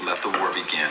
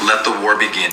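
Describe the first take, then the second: First: Soft ominous repeat of let the war begin; quiet echo. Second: Said in the usual way. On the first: Acted. Repeating his war cry to the viewers, soft and ominous. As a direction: drop it low and soft, ominous.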